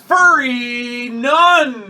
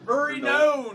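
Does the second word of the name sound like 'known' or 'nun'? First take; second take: nun; known. First: The second word is said like 'nun'. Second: The second word is said like 'known'. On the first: "The name is Furry Nun" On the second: "I thought you were going to pronounce it known"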